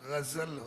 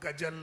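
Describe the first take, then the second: First: The middle consonant is a z sound. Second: The middle consonant is a plain j sound. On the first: The speaker calls it right. "गजल होता" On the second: The speaker calls it wrong. "गजल नहीं होता"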